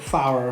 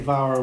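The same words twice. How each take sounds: First: The word begins with an F sound. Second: The word begins with a V sound. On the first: The speaker calls it wrong. "I didn't have the pronunciation right. I said Glider Fawr" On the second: The speaker calls it right. "One F is V in Welsh"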